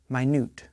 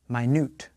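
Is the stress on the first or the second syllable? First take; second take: second; second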